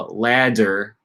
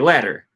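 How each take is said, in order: First: The middle consonant is a full, held D. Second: The middle consonant is a quick voiced flap. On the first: The speaker calls it wrong. "I don't say I'm gonna climb the ladder" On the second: The speaker calls it right. "I say ladder, at least in American English"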